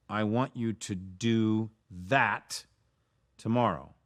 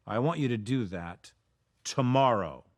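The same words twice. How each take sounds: First: THAT drawn out and leaned on; slow down and land hard on "that", pausing before "tomorrow"; stress on THAT. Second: TOMORROW set apart and punched; stress on TOMORROW. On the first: Coach showing a choice of emphasis, stress on "that". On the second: Coach showing another choice of emphasis, stress on "tomorrow". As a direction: run through to a short pause, then hit "tomorrow" harder. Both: Shown as a demonstration. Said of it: "you can't emphasize everything. You have to make choices".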